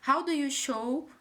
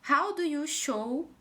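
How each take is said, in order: No difference in how they are said.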